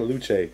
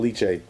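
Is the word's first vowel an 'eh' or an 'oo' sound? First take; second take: oo; eh. First: The first vowel sounds like 'oo'. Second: The first vowel sounds like 'eh'. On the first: The speaker calls it wrong. "I kept saying luche" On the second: The speaker calls it right. "Fucking leche"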